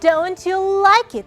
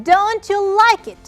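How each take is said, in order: First: The pitch falls at the end. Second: The same.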